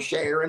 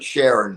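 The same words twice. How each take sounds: First: The name is said in a mocking Southern accent. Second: The name is said in a plain accent.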